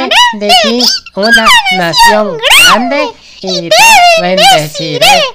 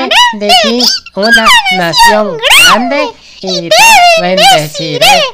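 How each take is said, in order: First: It is said in a squeaky chick voice. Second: It is said in a squeaky chick voice.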